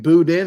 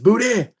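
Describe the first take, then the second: First: The final sound of the word is clearly pronounced. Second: The final sound of the word is dropped. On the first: "I have to" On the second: "you can't say the ends on words"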